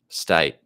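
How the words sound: The vowel is said in an Australian accent. "in this guy's Australian accent"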